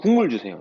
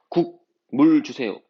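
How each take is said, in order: First: The word is said smoothly with syllables joined. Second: The word is split with a break between syllables. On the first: It asks for the broth itself. The speaker calls it right. "라고 하지" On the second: It sounds like asking for soup and water separately. The speaker calls it wrong. "이렇게 하니?"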